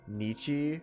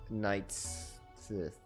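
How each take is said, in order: First: The name is said like 'neecha'. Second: The name is said like 'knights sith'. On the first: The speaker calls it right. "That's how that's pronounced" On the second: The speaker calls it wrong. "I can't pronounce that"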